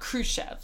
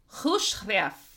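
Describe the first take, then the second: First: The name has an English K sound and plain R. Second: The name has a harsh H sound and rolled R. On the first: The speaker calls it wrong. "That's the American version of it" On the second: The speaker calls it right. "KH is pronounced like a hard H and roll the R"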